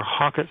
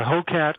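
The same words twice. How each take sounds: First: Hocket, rhyming with "pocket"; short "hock" at the start of Hocket; pronounced HOCK-et. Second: Long O in Hocat, then "cat"; pronounced HO-cat. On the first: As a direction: say Hocket with a short first vowel. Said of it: "some people say Hocket". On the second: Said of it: "how it's supposed to be pronounced". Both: Shown as a demonstration.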